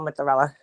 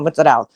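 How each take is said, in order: First: The word ends with a final a vowel. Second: The word ends without the final vowel. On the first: This is the long, standard way of saying it. "we don't want to call mozzarella. That's too long" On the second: This is the family's short way of saying it. "We're just gonna call mozzarella"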